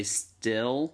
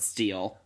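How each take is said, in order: First: "still" said with a short i, as still; "still" with the vowel of sit; the word still. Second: "steal" with a long ee, as she once said it; "steal" stretched to an ee sound; wrong vowel. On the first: Speaker recalls her line from a play, said right. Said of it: "I had to say". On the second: Speaker recalls botching her line in a play. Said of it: "and I said". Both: Shown as a demonstration.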